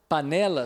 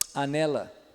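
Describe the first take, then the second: First: The word begins with a plain p sound. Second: The word begins with a lip click sound.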